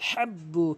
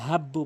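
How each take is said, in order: First: The h is made deep in the throat. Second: The h is a plain, light breath sound. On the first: The speaker calls it right. "এখানে বলতে হবে হলকের মাঝখান থেকে" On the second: The speaker calls it wrong. "অধিকাংশ লোক আল হাব্বু বলে"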